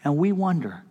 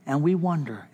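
No difference in how they are said.

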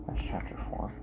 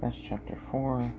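First: Soft breathy whisper. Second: Said in the usual way. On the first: Shown as a demonstration. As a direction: whisper the title to yourself. Whispered repeat of the title.

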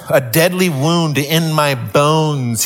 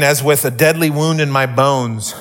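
First: "a deadly wound in my bones" drawn out slowly; slow, weighty repeat. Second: Said in the usual way. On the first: Shown as a demonstration. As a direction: let "deadly wound" sink in. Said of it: "repeated slowly for weight". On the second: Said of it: "reads verse, then repeats".

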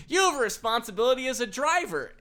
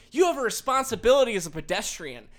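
First: High, loud mock yell from the corner; man yelling at the driver from the corner, mock shout; retold yell. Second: Mock scolding driver. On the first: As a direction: bystander shouting back at the driver. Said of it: "this guy yells from the corner". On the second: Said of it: "She's like".

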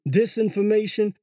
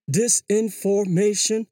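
First: Said in the usual way. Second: "disinformation" stretched slowly over five syllables. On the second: Shown as a demonstration. Counting the syllables of a fancy word, "disinformation" drawn out beat by beat. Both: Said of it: "It's five syllables".

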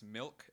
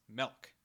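First: Said in the usual way. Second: "melk", with the vowel of "elk"; milk as "melk". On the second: Shown as a demonstration. Mimicking Calgary family's word for milk, "melk" with an eh. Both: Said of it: "they pronounce milk as melk".

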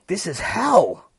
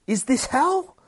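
First: "hell" high, loud and drawn out, then falling; horrified statement. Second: "hell" shooting up high as a question; alarmed question. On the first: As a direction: declare it slowly, landing hard on "hell". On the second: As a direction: ask it loudly, pitch climbing on "hell". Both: Acted. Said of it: "we got the inner monologue".

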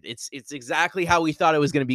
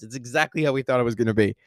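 First: Said in the usual way. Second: Fast, emphatic excited repeat; excited emphasis. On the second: Real, not acted. Reviewer insisting to fans it matched expectations, excited. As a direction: hammer it home with excitement. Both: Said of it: "repeats line more intensely".

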